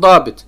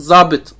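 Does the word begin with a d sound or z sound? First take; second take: d sound; z sound. First: The word begins with a d sound. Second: The word begins with a z sound. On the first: This is the Arabic form of the term. "Yani Arapçası dabit" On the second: This is the Turkish form of the term. "Türkçe artık zabit"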